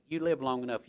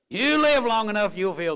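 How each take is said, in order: First: Said in the usual way. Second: Loud, high preacher's warning; emphatic warning. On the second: Real, not acted. Preacher warning young people, loud and emphatic. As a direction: raise it sharply to drive the warning home.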